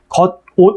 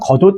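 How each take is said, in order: First: Each part is said separately with a break. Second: The parts run together, final consonant linked forward. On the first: "겉, 옷 이렇게 했다가" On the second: "이어지면 겉옷 이렇게 된다"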